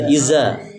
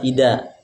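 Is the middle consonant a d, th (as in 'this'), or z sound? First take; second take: z sound; d sound. First: The middle consonant is a z sound. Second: The middle consonant is a d sound. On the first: "jangan dibaca iza" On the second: "Jangan juga pakai dal"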